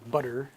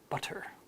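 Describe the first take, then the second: First: The middle T is voiced, almost a D. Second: The middle T is a clear, voiceless T. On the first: "we say butter" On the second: "like the British do"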